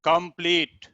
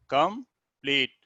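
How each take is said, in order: First: Said in the usual way. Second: complete split in two with a pause; syllable by syllable. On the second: Shown as a demonstration. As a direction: say complete as com, then pleet, slowly. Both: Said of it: "ये टू syllabic में है".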